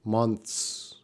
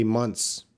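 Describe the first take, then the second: First: "Months" with a slight TH before the S; proper TH. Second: "months" with no TH, ending in TS; cheat pronunciation. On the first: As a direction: lightly sound the TH in "Months". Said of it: "You wanna get the right sound". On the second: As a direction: say "months" as munts. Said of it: "if you need to cheat, just say". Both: Shown as a demonstration.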